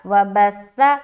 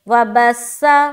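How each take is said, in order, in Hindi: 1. 'th' की आवाज़ नरम है, उसमें सीटी जैसी आवाज़ नहीं है। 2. 'th' की आवाज़ सीटी वाली 's' बन जाती है। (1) "सा में सीटी आवाज नहीं आएगी, नरमी के साथ अदा करेंगे" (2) "तो ये हर्फ सा नहीं रहा, वो सीन में चेंज हो गया"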